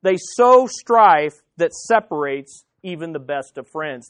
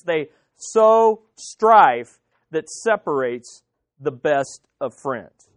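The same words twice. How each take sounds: First: Said in the usual way. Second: Very slow, low, spaced-out words; slow emphatic repeat. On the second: Shown as a demonstration. Preacher driving home gossip's damage, slow and deliberate. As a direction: weigh "sow strife" and "separates", pausing between.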